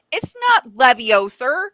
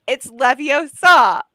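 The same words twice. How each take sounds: First: "Leviosa" stressed on the "o", rising; mock-wrong "Leviosa" with a long "o". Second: "Leviosa" slowed, louder, ending on a clear "sah"; corrected stress. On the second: Retold or imitated. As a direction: correct "Leviosa" said with a schoolmarm's emphasis. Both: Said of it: "a very specific accent".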